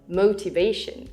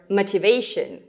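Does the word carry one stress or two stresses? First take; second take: two; one. First: The first syllable also carries a lighter stress. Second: Only one syllable is stressed, rushed through. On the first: The speaker sounds like a native English speaker. "instead of motivation" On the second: The speaker sounds like a native Russian speaker. "or motivation"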